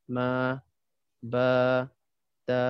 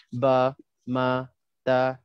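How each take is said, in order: First: Ma, ba, ta with vowels drawn out; long vowels. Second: Ba, ma, ta each clipped short; short vowels. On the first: Teacher stretches ma, ba, ta to show long vowels. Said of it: "tiba-tiba dalam satu tempat tu kita baca". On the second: Teacher reads ba, ma, ta short for students. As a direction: read ba ma ta short as usual. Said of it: "kan biasa kita baca pendek je". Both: Shown as a demonstration.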